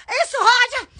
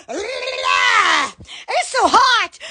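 First: Said in the usual way. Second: It's so hot stretched very slowly, every word dragged; drawn-out moan. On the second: Real, not acted. Vlogger moaning about the heat, slowly drawn out. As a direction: drag out so hot like a long groan.

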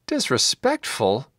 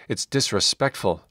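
First: Higher, drawn-out disbelieving question; acted outraged query, not shouted; incredulous cry. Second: Said in the usual way. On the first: A narrator's reading. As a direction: echo it back in disbelief, slowly. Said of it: "Gideon cried".

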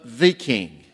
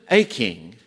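First: "the" stressed and said as "thee", slowly. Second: "a" stressed and said as long "ay". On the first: Preacher naming the one true King, stress on "the". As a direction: lean slowly on "the", pronounced "thee". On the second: Preacher correcting to a greater king, stress on "a". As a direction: set "a" apart, pronounced "ay". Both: Shown as a demonstration. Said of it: "Not just a king, but the king".

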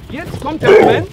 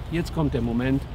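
First: Higher and louder, mounting tension; building up. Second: Calming down. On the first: Trainer announces the moment to step in, high and loud. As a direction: announce the big moment loudly. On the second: Trainer lets the calm set in, low and soft. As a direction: lower and softer, settling. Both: Shown as a demonstration. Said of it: "jetzt kommt mein Moment".

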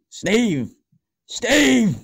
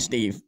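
First: High, loud call across the house; shouting Steve. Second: Said in the usual way. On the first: Acted. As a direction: yell his name to get him to answer. Calling Steve, getting louder.

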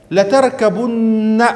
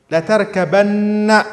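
First: لتركبن drawn out slowly, higher, ending in a long nasal ن; slow Quranic recitation of لتركبن. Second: لتركبن slow and higher, with the ن doubled and a long final a; measured Quranic reading of لتركبن; slow recitation. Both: Shown as a demonstration. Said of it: "كيف الآية؟".

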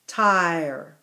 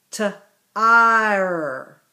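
First: Said in the usual way. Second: T-ire split into t and ire; segmented word. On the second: Shown as a demonstration. Teacher to class, breaking T-ire into sounds. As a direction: say T-ire in two parts. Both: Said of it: "Our next word is t-ire".

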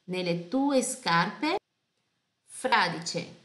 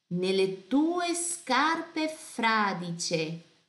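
First: Said in the usual way. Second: Nelle tue scarpe fradicie read very slowly, every syllable clear; slow careful reading. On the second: Shown as a demonstration. Teacher reading the lyric slowly for pronunciation. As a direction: read it slowly for the class to follow. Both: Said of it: "Atenção à pronúncia".

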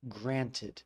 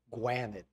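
First: Granted with a clear R and a sounded T; Granted said krantid, the American way; Granted in plain American. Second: Granted said with a W for the R and a nasal A; Granted as gwanid, no T; Granted with the soft R and dropped T; Alfie's granted. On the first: Shown as a demonstration. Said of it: "from the way that I would pronounce it". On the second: Retold or imitated. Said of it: "He changes the R, the A, and the T".

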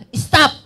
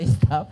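First: Sudden loud high "Stop!" barked at the crowd; shouted stop. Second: Said in the usual way. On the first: Retold or imitated. Retelling a pastor friend, he yells "Stop!" loudly. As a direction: snap "Stop!" out sharp and loud. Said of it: "Ang sabi niya". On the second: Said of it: "sabi niya".

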